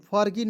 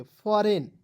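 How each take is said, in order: First: फॉरगिन with a hard G; wrong pronunciation. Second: फॉरेन with the G silent; correct pronunciation. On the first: Teacher warning students off, misread फॉरगिन with sounded G. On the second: Teacher correcting students' reading, silent-G फॉरेन. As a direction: say फॉरेन, no G at all. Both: Shown as a demonstration. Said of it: "फॉरगिन नहीं पढ़ेंगे".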